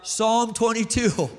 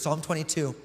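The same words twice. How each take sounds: First: Drawn-out, mildly raised cry; mock scream. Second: Said in the usual way. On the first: Preacher imagining Jesus on the cross today, mock screamed out. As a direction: call it out slowly, like a restrained scream. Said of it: "he probably would have screamed out".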